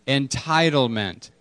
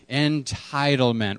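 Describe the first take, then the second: First: Entitlement spoken slowly, falling at the end; slow call and response. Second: Entitlement said slowly for the room to repeat; slow call and response. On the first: Pastor asking the room to say it again, slow. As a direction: say Entitlement slowly so they echo it. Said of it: "One more time". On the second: Pastor leading the church in repeating, slow and clear. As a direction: lead the congregation through Entitlement, slowly. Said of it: "Everyone say it with me". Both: Shown as a demonstration.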